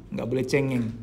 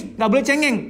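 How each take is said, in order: First: Said in the usual way. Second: High, chiding "nggak boleh cengeng", like a strict parent; mock scolding parent. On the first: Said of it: "Laki-laki nggak boleh nangis". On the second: Parent telling a crying son "nggak boleh cengeng", mock scolding. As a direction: scold a boy for crying, pitched up. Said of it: "kita berada pada kultur yang".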